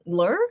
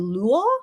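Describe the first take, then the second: First: The word is said with English-style sounds. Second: The word is said with Korean-style sounds.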